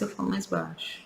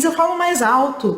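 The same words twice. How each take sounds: First: Very soft, nearly voiceless; demonstrating sad, hushed speech; lowered, sad voice. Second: Raised, higher happy voice; demonstrating happy, raised speech; louder, happy voice. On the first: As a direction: drop right down in volume, as when sad. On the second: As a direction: lift the voice up high, as when happy. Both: Shown as a demonstration.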